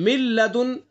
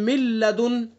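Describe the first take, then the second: No difference in how they are said.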